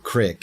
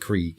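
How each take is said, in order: First: The word has a short i vowel. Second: The word has a long ee vowel.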